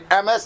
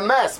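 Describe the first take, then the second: First: The first vowel is full and long. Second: The first vowel is very short and reduced. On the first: The speaker calls it wrong. "But you can't say MS" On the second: The speaker calls it right. "it's got to be read MS, because the aleph has a chataf segel"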